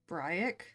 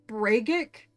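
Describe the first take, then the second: First: The first vowel sounds like 'bright'. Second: The first vowel is an 'a' sound. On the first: The speaker calls it right. "Looks like bright, so I'd pronounce it that way" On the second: The speaker calls it wrong. "Where do you get the A sound from?"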